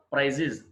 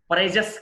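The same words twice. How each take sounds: First: ప్రైజెస్ as "prize-iz"; "-iz" ending. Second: ప్రైజెస్ as "prize-ess"; wrong plural ending. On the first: Teacher correcting learners' plural, ప్రైజెస్ as "prize-iz". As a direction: end ప్రైజెస్ on short i and z. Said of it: "ఇజ్". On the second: Teacher showing learners the mistake, ప్రైజెస్ as "prize-ess". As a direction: end ప్రైజెస్ on open e and hissed s. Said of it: "కాదు". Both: Shown as a demonstration.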